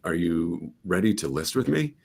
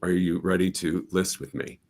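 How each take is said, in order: First: The pitch rises at the end of the question. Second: The pitch falls at the end of the question. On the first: The speaker sounds doubtful or uncertain. The speaker calls it wrong. "And I go up, that doesn't sound very confident" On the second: The speaker sounds confident. The speaker calls it right. "That's just a more confident"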